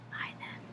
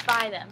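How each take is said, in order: First: Soft whispered urging; whispering. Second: Loud firm command; emphatic. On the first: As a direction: whisper it like a secret. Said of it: "repeated after the loud take". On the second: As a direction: push it hard. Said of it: "repeated in a whisper". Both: Shown as a demonstration.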